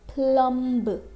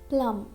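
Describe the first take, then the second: First: A B sound is pronounced at the end. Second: No B sound is pronounced at the end. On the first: The speaker calls it wrong. "We can't say plumb. Okay, this is wrong" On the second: The speaker calls it right. "We have to speak plum"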